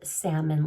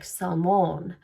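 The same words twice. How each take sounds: First: It sounds like the fish word salmon. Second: It sounds different from the fish word salmon. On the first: The speaker calls it wrong. "like the fish that swims in the sea, but I'm quite positive I'm not pronouncing it right" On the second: The speaker calls it right. "It was probably more like salmon"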